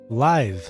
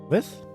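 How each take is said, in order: First: The word has a long vowel, like 'light'. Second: The word has a short vowel, like 'lit'. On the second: "How do you pronounce that?"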